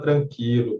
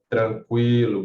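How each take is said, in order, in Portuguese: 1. O U depois do Q não se pronuncia. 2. O U depois do Q se pronuncia claramente. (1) "não existe a palavra tranquilo" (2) "você tem que pronunciar o U sim"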